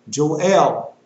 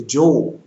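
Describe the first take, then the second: First: "Joel" said Jo-EL, stress on the second syllable; Joel as two syllables. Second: "Joel" said Jole, rhyming with coal; Joel as one syllable. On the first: Preacher corrects the book's name, "Joel" as Jo-EL. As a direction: say "Joel" as jo-ELL, punched. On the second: Preacher quotes the common way, "Joel" as Jole. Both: Shown as a demonstration. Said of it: "that's what they say".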